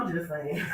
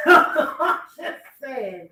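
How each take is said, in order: First: Said in the usual way. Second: Slow, laughing through the words; drawn out with a laugh. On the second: Real, not acted. Host laughing at Steve's advice, slow.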